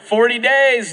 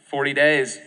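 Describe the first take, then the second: First: It is said loudly with excited energy. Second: It is said with a mocking, ironic tone. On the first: The city is surely doomed. "an excited proclamation, like" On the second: He doubts the city will really be destroyed. "Or do you think maybe it was sarcastic?"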